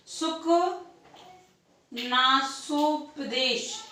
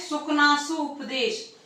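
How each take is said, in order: First: Each syllable of सुकनासोपदेश drawn out very slowly; slow dictation. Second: Said in the usual way. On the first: Shown as a demonstration. Teacher dictating the term to students, very slow. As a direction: spell सुकनासोपदेश out syllable by syllable for note-taking.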